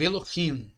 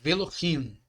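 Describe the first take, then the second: First: The two vowels merge into one syllable. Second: The two vowels merge into one syllable.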